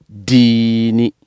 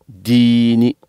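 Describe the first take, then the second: No difference in how they are said.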